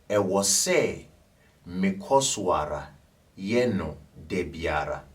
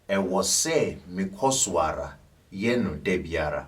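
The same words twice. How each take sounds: First: It is said slowly. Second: It is said at normal speed.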